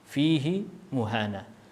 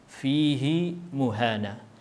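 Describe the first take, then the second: First: The pronoun vowel in fihi is lengthened. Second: The pronoun vowel in fihi is lengthened.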